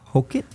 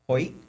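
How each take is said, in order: First: The K sound is pronounced in the name. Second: The K sound is left out of the name. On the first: The speaker calls it wrong. "Is it not Hokit?" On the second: The speaker calls it right. "the case silent"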